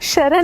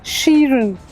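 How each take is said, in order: First: The first vowel is a short 'a'. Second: The first vowel is a long 'ee'. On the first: The speaker calls it wrong. "शरण नहीं है वो" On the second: The speaker calls it right.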